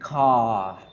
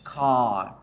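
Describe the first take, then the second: Both takes have the same delivery.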